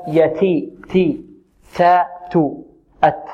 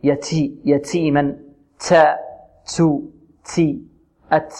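First: ت in يتي، تي، تو، أت released with a clean puff of air; correct ta with hams. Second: ت in يتيما، تا، تو، تي، أت hissed into "ts"; ta tinged with sin. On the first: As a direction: separate syllables, ت airy without any س. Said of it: "إذن نقول هكذا". (نطق التاء مهموسة صحيحة) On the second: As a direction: demonstrate the faulty ت with an س sound after it. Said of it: "يشرب التاء رائحة السين". (نطق التاء برائحة السين خطأً) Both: Shown as a demonstration.

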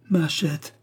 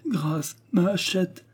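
First: High wailing cry over a lost hatchet; child's lament, voice raised; boy's cry. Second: Higher, desperate begging wail; child pleading for his hatchet; pleading lament. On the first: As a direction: wail it out, lamenting. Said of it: "s'exclamait-il". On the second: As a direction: beg for mercy, near tears. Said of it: "remplit la combe de ses lamentations". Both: A narrator's reading.

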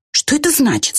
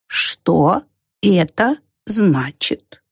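First: High-pitched, quick question; brisk puzzled little character; puzzled ant. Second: Extremely drawn-out, puzzled question; ponderous snail voice; slow snail. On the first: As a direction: ask high, then drop at the end. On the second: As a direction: leave gaps between slow words. Same slow snail character. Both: A narrator's reading.

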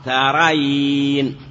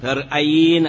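First: ترين drawn out slowly, with no glottal stop; hamza dropped. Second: ترأين with a glottal stop after the r; ترأين in full, hamza pronounced between r and a; original form with hamza. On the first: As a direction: say ترين as ta-ra-yiin, gliding without a hamza. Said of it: "ثم حذفت الهمزة تخفيفا فصار". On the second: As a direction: say ترأين as tar-'a-yiin, sounding the hamza. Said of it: "الآن كيف". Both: Shown as a demonstration.

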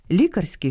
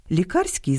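First: ЛІ́карський, opening syllable stressed; stress on first syllable. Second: ЛіКА́РСЬКИЙ, stress on КАР; stress on second syllable. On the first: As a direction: say Лікарський stressing ЛІ. (наголос на першому складі: лі́карський) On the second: (наголос на другому складі: ліка́рський) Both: Shown as a demonstration. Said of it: "місце наголосу впливає на значення".

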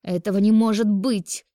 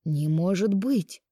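First: High, loud cry of denial; shrieked disbelief. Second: Slow, astonished disbelief; surprised. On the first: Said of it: "заверещала Ольга". (визгливо, с отчаянием) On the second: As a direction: draw it out in amazement. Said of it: "удивился врач". (удивлённо, растягивая слова) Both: A narrator's reading.

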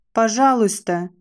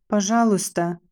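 First: A pleading shout, a little raised; desperate cry. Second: A shaky, frightened please; trembling plea. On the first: Condemned girl cries out to the jeering crowd for mercy. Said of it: "крикнула я". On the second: Condemned girl begs her judge, trembling and pleading. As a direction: beg for her life with a trembling voice. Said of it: "взмолилась я дрожащим голосом". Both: A narrator's reading.

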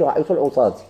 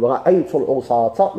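First: "العصاة" ending in -ti; quick counterexample, "العصاة" closed on -ti; wrong -i ending. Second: "العصاة" ending in a clear -ta; accusative ending -a. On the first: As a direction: say "العصاة" as al-usaati. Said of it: "ما تقولش". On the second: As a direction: say "العصاة" as al-usaata. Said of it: "ما تقولش رأيت العصاة". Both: Shown as a demonstration.

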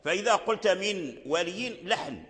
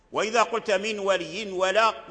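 First: من ولي said without nunation, as a mistake; wrong recitation. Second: ولي ولا run together without a break; wrong recitation. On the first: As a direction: say من ولي dropping the tanween, flat and slow. (قراءة خاطئة بدون تنوين في من ولي) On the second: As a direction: glide straight from من ولي into ولا, no pause. (وصل من ولي ولا بلا سكت) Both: Shown as a demonstration.

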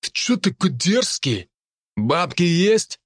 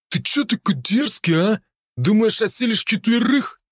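First: High, slow bullying thug voice; russian street thug. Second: Russian street thug. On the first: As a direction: lean in like a menacing punk. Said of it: "набычился тот". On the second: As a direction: sneer like a cocky street punk. Thug challenges narrator. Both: Acted.

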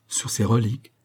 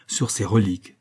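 First: RELIQUES rising as a question. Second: RELIQUES falling to a firm close; solemn confirmation. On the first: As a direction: ask it, lifting the end on "reliques". Queen asks bishop to swear on relics. (interrogation, « reliques » qui monte) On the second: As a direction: confirm it, dropping the end on "reliques". Bishop confirms his oath. (affirmation solennelle, « reliques » qui descend) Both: Acted.

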